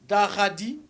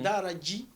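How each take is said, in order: First: The middle consonant is a plain d. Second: The middle consonant is a dj sound. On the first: This is the Soussou form of the name. "Daradi, ça c'est en Soussou" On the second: This is the Wolof form of the name. "Daradji, ça c'est en Wolof"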